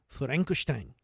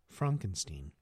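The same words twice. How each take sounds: First: It is said in an imitated Japanese accent. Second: It is said in the speaker's plain accent.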